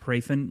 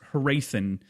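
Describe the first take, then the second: First: The opening H is pronounced faintly. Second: The opening H is pronounced strongly. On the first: The speaker calls it right. "I think it's like a subtle H" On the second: The speaker calls it wrong. "I overpronounce the H"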